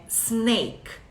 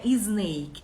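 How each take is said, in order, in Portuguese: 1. A palavra começa diretamente com o som de s. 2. Um som de vogal extra vem antes do s. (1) "é snake" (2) "Cobra não é snake"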